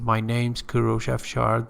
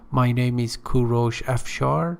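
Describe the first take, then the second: First: The words 'name is' are contracted together. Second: The words 'name is' are said in full. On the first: The speaker calls it right. "It's better to use a contraction" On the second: The speaker calls it wrong. "the first one in red actually is not preferable"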